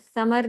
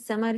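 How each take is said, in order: First: The word begins with a th sound. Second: The word begins with a plain s sound. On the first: The speaker calls it wrong. "नहीं" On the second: The speaker calls it right. "समर ही कह रहे होते हैं उर्दू में"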